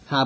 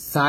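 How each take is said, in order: First: "সা" as soft airy th; tongue tip to upper teeth for a lisped "সা"; correct soft "সা". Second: "সা" with a plain hissed s; the mistaken s sound in "সা", no lisp; wrong hard "সা". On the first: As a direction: say "সা" with soft breath, not a hissed s. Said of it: "সা বলতে হবে". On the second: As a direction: say "সা" with an ordinary sharp s. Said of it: "সা কিন্তু না". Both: Shown as a demonstration.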